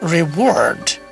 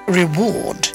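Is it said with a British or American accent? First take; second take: American; British. First: It is said with an American accent. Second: It is said with a British accent.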